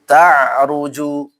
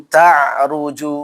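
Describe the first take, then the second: No difference in how they are said.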